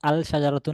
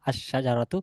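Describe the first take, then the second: First: The L is pronounced before the SH. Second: The L merges into a doubled SH. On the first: The speaker calls it wrong. "আল শাজারাতু না" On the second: The speaker calls it right. "এই লামটা শিনের সাথে মিশে গিয়ে শিনের উচ্চারণ হবে"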